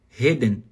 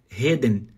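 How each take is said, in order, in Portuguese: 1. O R soa aspirado, como um H. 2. O R soa aspirado, como um H.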